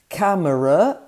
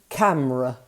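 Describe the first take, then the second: First: All three syllables are pronounced. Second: The middle vowel is dropped.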